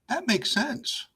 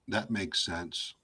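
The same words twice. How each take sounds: First: It is said in a sincere, genuine tone. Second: It is said flatly, with no expression. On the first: The speaker truly thinks it makes sense. "it's a totally different meaning" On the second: The listener is not convinced it makes sense. "with no tone, no body language"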